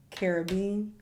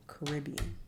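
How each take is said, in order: First: Caribbean said KEH-ruh-been, stress on the first syllable; pronunciation. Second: Caribbean said kuh-RIB-ee-un, stress on the second syllable; pronunciation. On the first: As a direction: say Caribbean as CARE-uh-bean. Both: Shown as a demonstration. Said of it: "Caribbean or Caribbean".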